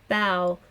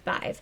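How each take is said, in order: First: The word ends on an open vowel sound. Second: The word ends with a v sound. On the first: This is the modern Irish form. "in modern Irish" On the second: This is the Munster regional form. "in Munster Irish"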